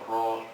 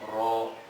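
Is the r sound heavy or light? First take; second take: heavy; heavy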